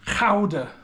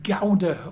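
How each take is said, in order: First: The G is a throaty ch-like sound. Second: The G is a hard English G sound.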